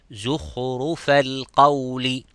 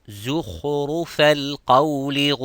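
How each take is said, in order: The two takes are said the same way.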